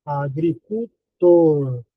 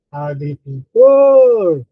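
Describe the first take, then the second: First: "agricultor" slowly split, lingering on "tor"; "agricultor" in slow separate syllables, ending on a long "tor". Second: "agricultor" called out loud with a long "TOR"; demonstrated call, "agricul-TOOOR", last syllable held loud; stress on TOR. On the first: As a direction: sound out "agricultor" piece by piece. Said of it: "O mais forte é tor". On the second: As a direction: swell into a drawn-out shout on "TOR" of "agricultor". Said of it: "a mais forte é to". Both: Shown as a demonstration.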